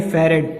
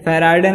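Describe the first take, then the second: First: Said in the usual way. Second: फैराड है said with long "aa" and added "-ey" ending; mispronounced Farad. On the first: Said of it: "फैराड है नहीं". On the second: Shown as a demonstration. Teacher showing students the wrong name, mispronounced फैराड है as "fairaadey". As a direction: say फैराड है like "fai-RAA-dey". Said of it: "कई लोग फैराडे, फैराडे बोलते हो".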